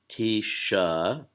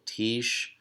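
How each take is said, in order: First: The word ends with an added uh vowel. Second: The word ends on the sh consonant. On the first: The speaker calls it wrong. "So it's not tisha" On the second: The speaker calls it right. "It's all one syllable"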